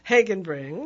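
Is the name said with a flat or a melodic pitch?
flat. The name is said with a flat pitch. The speaker calls it wrong.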